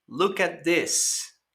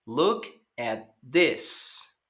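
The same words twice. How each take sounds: First: Slow, careful "Look at this"; slow teacher model; slow model phrase. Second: Very slow "Look at this"; slow teacher model; slow repeat for learners. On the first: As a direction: say it slowly for students to copy. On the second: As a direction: give students a slow echo to repeat. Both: Shown as a demonstration.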